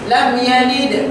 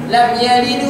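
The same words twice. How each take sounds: First: It stops on yalid with a strong bounce. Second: It runs on past yalid with a light bounce. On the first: "kalau berhenti" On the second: "kalau sambung"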